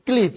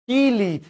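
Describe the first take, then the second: First: Said in the usual way. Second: High কিলিপ, split as ki-lip; regional pronunciation. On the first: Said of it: "আর এটা কি?". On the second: Shown as a demonstration. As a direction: add an i between k and l in কিলিপ. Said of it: "আঞ্চলিক ভাষায় কি বলে?".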